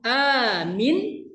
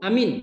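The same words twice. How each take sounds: First: The first vowel is long, the second short. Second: Both vowels are short. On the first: Make it safe. "A-nya panjang, minnya pendek" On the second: Believe. "A-nya pendek, mimnya pendek"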